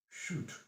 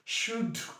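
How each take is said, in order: First: The word is unstressed with a short vowel. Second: The word is stressed with a long vowel. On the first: It is a plain neutral statement. "It is short U" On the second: The speaker is angry or insistent. "you can stress that and lay emphasis on that should"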